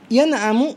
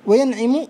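First: ينعم with a short a on the ع, "yan'amu"; with fatha. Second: وينعم with a short i on the ع, "wa-yan'imu"; with kasra. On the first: Teacher showing the regular form, fatha on ع. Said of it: "بالفتح المقيس". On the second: Teacher showing the irregular form, kasra on ع. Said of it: "بالكسر الشاذ". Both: Shown as a demonstration.

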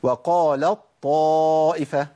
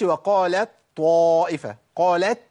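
First: وقالت طائفة with the ت merged into a doubled ط, slow; full assimilation. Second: وقالت طائفة with the ت pronounced separately; wrong clear t. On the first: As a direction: drop the ت and press the ط of طائفة. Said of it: "أقول إيه؟". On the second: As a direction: keep a clear ت in قالت before طائفة. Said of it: "ما أقولش". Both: Shown as a demonstration.

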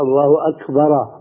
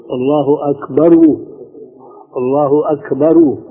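First: الله أكبر ending in a clear a, as أكبرا; with fatha. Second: الله أكبر ending in a clear u, as أكبرو; with damma. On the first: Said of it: "الفتحة". (الله أكبرَ بالفتحة) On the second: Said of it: "لأنه الضمة بتكون". (الله أكبرُ بالضمة) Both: Shown as a demonstration.

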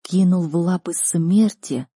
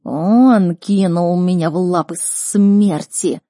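First: Slow, dazed disbelieving question; understated shock; stunned echo. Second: Slow, loud beast accusation; heavily drawn-out creature voice; Никс. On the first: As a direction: repeat it slowly, struggling to take it in. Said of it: "выпадая из реальности от услышанного". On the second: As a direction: wail it out word by word like a wronged creature. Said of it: "продолжал Никс". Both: Acted.

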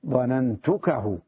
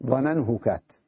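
First: "ظننتكه" said slowly as the right order; correct form. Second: "ظننهكت" said as the clumsy reversed order; awkward wrong form. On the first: Teacher gives students the correct "ظننتكه" slowly. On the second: Teacher contrasts "ظننهكت" with the correct form for students. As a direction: sound out "ظننهكت" as the ugly wrong version. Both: Shown as a demonstration. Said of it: "الطبع ينفر منها".

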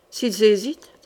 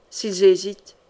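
First: "S'ils hésitent?" with the pitch rising at the end; questioning echo. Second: Said in the usual way. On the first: A narrator's reading. Captain questioning the queen's order, "S'ils hésitent?" as a rising echo.

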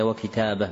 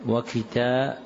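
First: "وكتابة" with an a vowel on the ب; fatha on ba. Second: "وكتابه" with an i vowel under the ب; misprinted kasra. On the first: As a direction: read "وكتابة" as wa-kitāba, open vowel after the b. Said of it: "بفتح الباء". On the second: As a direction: read "وكتابه" as wa-kitābi-h, kasra on the ba. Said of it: "تحت الباء وضع كسرة". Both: Shown as a demonstration.

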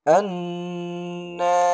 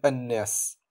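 First: الناس with a slow, sustained nn; nasal ghunna. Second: Said in the usual way. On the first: Shown as a demonstration. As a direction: hold the doubled n of الناس in a long nasal hum. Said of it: "لكن أقول". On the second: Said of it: "هنا لا أقول".

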